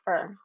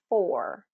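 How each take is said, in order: First: The word has a weak, reduced vowel. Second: The word has a full, clear vowel. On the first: "they're going to say fur, fur in a sentence" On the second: "the full pronunciation is four"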